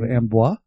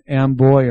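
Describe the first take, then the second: First: The name is said the French way. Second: The name is said the American way. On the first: This is the original French form. "instead of Ambois" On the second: This is how the locals say it. "And Amboy"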